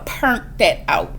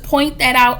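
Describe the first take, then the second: First: It is said in a strong New Orleans accent. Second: It is said in a plain, neutral accent.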